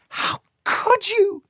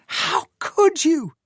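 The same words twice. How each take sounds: First: High, slow anguished cry of a woman; shouting. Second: High, slow anguished cry, falling at the end; shouting again. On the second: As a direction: let the repeat sink down. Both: A narrator's reading. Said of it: "she shouted".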